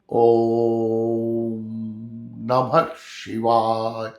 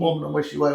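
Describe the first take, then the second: First: It is said with a break and raised voice. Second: It is said smoothly without a break.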